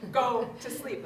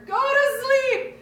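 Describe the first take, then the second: First: Louder, firm bedtime order; coaxing mom turns firm; firm command. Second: Screamed very high and loud, slow, voice cracking; crying yell. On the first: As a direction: tell a toddler to sleep, no nonsense. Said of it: "I'm like". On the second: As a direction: scream it through tears, at the end of your rope. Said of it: "I'm crying and yelling at her". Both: Retold or imitated.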